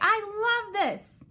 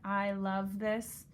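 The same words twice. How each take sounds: First: It is said with strong, excited feeling. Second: It is said flatly, without feeling.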